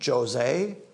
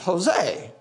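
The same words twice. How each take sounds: First: The name begins with a J sound. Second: The name begins with an H sound. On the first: The speaker calls it wrong. "You don't say, hey, Jose" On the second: The speaker calls it right. "If you see a J, you pronounce it as an H"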